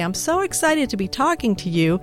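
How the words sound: It is said in an excited way.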